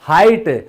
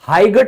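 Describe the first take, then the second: First: The g sound is silent. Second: The g sound is pronounced. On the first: The speaker calls it right. "तो ये silent है" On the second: The speaker calls it wrong. "हाइगट बोलते हैं ना कभी, सुना है कभी, नहीं"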